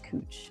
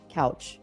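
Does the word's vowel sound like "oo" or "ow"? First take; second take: oo; ow. First: The vowel sounds like oo in too. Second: The vowel sounds like ow in cow. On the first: The speaker is a local. The speaker calls it right. "But yes, it is cooch" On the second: The speaker is not from the area. The speaker calls it wrong. "you can tell if someone's not from the area if they pronounce it"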